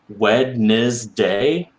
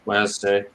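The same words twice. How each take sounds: First: The D and N sounds are both pronounced. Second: The D and N sounds are dropped. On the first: "somebody who actually pronounced it Wednesday" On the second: "then the N goes too, right? If I'm super tired, I'm skipping that one"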